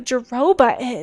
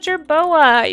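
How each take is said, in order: First: The middle sounds are swapped, giving jo-ro-ba. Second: The sounds are in order, giving jer-bo-a. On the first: The speaker calls it wrong. "I'll switch things around" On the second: The speaker calls it right. "That's just how you say it"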